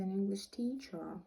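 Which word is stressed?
teacher. The stress falls on the word teacher. The teacher is from England. "so a teacher who is English"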